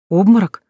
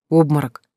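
First: Fussing alarmed question, higher and louder. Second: Said in the usual way. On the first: A narrator's reading. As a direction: snap it back in alarm. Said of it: "засуетилась Мила". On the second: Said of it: "said flat, then questioned".

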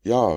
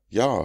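First: Loud, high "Ja"; a firm, raised "Ja"; called yes. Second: "ja" echoed back high and loud; a mimicking "ja" that copies his call; echoed yes. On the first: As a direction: call "Ja" out strongly. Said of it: "rief er". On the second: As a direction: throw the "ja" back as an echo. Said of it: "rief sie". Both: A narrator's reading.

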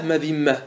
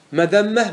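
First: مذمة said "madhimma", with an i, falling; kasra form. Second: مذمة said "madhamma", with an a, pitched high; fatha form. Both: Shown as a demonstration. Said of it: "ما ورد بالوجهين".

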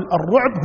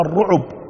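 First: "الرعب" as ar-ruʕb, no vowel on the ain; "الرعب" بسكون العين; with sukun. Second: "الرعب" as ar-ruʕub, u after the ain; "الرعب" بضم العين; with damma. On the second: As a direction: let "الرعب" open into ruʕub. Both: Shown as a demonstration. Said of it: "قبائل من العرب تقول".

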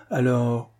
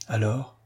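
First: Said in the usual way. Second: Soft smiling rising "Alors?"; softer smiling "Alors?" with a rising end; smiling question. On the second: Acted. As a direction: ask "Alors?" gently with a smile, voice lifting. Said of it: "dit-elle en souriant".

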